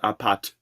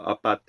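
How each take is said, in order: First: The T sound is hard and strong. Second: The T sound is soft and delicate. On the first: This is how a non-native speaker says it. "The way I say it, like pat" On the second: This is how a native speaker says it. "they're much more delicate in like Francesca's accents"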